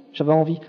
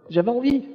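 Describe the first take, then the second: First: Said in the usual way. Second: Envie lifted high with a rising tune; first "j'avais envie" goes up high on envie; pitched-up first take. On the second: Real, not acted. Telling the church how he longed to go back, envie sung up high.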